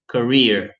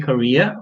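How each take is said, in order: First: The word is said in an American accent. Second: The word is said in a British accent. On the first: "for American people, you could say career" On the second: "this is the way we're pronounced in a British accent. We say Korea"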